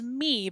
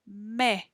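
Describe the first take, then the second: First: The vowel is a long ee sound. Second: The vowel is a short eh sound. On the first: The speaker calls it wrong. "Looks like it says me, but it doesn't" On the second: The speaker calls it right. "It says me"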